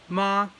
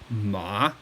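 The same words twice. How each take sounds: First: The pitch stays high and level. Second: The pitch drops down low. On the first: "high flat tone" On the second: "Third tone, ma. You kind of drop down"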